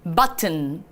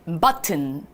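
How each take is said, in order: Both takes have the same delivery.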